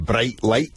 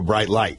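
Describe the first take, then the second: First: It is said in a Scottish accent. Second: It is said in an American accent.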